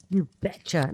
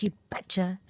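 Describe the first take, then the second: First: Said in the usual way. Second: Lightly put-on Midwestern 'You betcha'; mock Midwestern you betcha. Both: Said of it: "Maybe Becca says".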